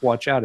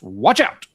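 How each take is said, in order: First: It is said flatly, without extra energy. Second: It is said loudly, with exclamatory energy. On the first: The speaker calls it wrong. "It's not Watch Out" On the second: The speaker calls it right. "There's an exclamation point at the end, so I have to say it that way"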